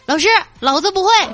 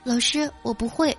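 First: It is shouted loudly and arrogantly. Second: It is said weakly and timidly.

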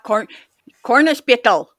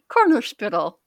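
First: It is said in an attempted German accent. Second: It is said in the speaker's ordinary accent.

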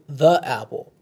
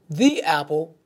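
First: The word 'the' ends in an 'uh' sound. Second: The word 'the' ends in an 'ee' sound. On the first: "instead of saying" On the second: "pronounce the word with an E sound at the end, preceding a word that begins with a vowel"

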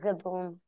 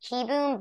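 First: The first syllable sounds like 'ka'. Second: The first syllable sounds like 'kee'. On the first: The speaker calls it wrong. "it's fun to say Carter Kaboom" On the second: The speaker calls it right. "I'm pretty sure it's pronounced Kiboom"

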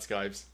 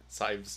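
First: The word begins with an sk sound. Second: The word begins with a plain s sound. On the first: The speaker calls it wrong. "not scythes" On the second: The speaker calls it right.

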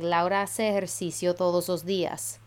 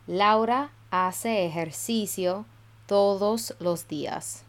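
First: It is said fast with the words running together. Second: It is said slowly and carefully.

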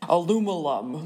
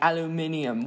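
First: The word is said with four syllables. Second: The word is said with five syllables. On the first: This is the American way to say it. "the normal American speaking way to pronounce aluminum" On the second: This is the British way to say it. "this like English dude, ... and he's like"

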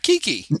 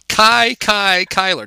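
First: The name's vowels sound like 'ee'. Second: The name's vowels sound like 'eye'. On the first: The speaker calls it wrong. "not Kiki" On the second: The speaker calls it right. "I only know how to say his name because Harry would talk about him"

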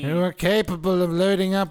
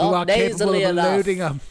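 First: The alien voice is strongly nasal. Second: The alien voice is only slightly nasal.

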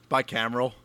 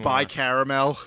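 First: The middle is said as cameral, without caramel. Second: The middle sounds like the word caramel. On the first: The speaker calls it right. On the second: The speaker calls it wrong.

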